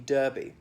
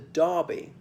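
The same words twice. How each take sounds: First: The first vowel sounds like 'er'. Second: The first vowel sounds like 'ar'.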